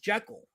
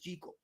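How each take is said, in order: First: Jekyll is pronounced the way its spelling suggests. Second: Jekyll is pronounced the original Scottish way. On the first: The speaker calls it wrong. "as it appears to be pronounced" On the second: The speaker calls it right. "It really is Jekyll"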